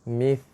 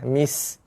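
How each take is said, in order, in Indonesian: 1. Kata ini berakhir dengan bunyi th yang lembut. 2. Kata ini berakhir dengan bunyi s yang mendesis. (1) "Jaga tha" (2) "menukarkan huruf tha kepada huruf sin"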